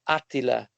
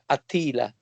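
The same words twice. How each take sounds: First: It is pronounced the Italian way. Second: It is pronounced the American way.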